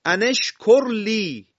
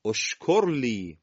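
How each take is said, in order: First: ان اشکر لی high, loud and slow, "an" gliding into "eshkor li"; joined recitation. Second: اشکر لی said slowly, opening on "o" as in "oshkor li"; starting with damma. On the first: Teacher recites the example aloud, slow raised linked reading. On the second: Teacher shows students how to start the word, slow clear demo. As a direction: begin اشکر لی with a rounded "o". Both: Shown as a demonstration. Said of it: "کلمهٔ ان رو برداریم".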